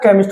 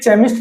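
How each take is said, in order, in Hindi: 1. शब्द 'k' ध्वनि से शुरू होता है। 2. शब्द 'ch' ध्वनि से शुरू होता है। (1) "केमिस्ट होता है" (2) "ये केमिस्ट नहीं होता"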